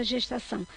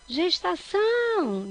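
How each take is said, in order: First: Said in the usual way. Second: Gestação called out, final ÇÃO long and high; stress on ÇÃO. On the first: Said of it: "Vamos ver, então". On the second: Shown as a demonstration. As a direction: stretch and lift the last syllable of "Gestação". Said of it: "É o são". (gestação com o ÇÃO alongado e agudo)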